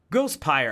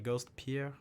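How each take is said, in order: First: The second word rhymes with the English word fire. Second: The second word sounds like the French name Pierre. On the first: The speaker calls it right. "Ghost and Vampire" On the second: The speaker calls it wrong. "I wasn't sure if it was like French"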